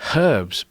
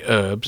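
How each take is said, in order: First: British accent, the h is pronounced. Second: American accent, the h is silent.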